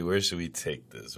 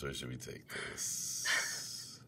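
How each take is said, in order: First: Said in the usual way. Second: Slow, breathy whispered question. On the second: Shown as a demonstration. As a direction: draw it out in a whisper.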